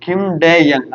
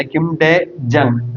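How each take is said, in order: First: യങ് begun with a Y glide, as "yang"; Y variant. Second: ജങ് begun with a J, as "jang"; J variant. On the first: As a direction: say യങ് with an initial Y sound. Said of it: "അല്ലെ Kim ഡേ ജങ് എന്ന് പറയാം". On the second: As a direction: say ജങ് with an initial J sound. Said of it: "എന്ന് പറയാം". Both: Shown as a demonstration.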